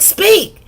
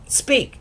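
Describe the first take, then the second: First: A much higher, louder sharp command. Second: Said in the usual way. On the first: Retold or imitated. Owner losing patience with the dog, shouting speak. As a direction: bark the order at the dog.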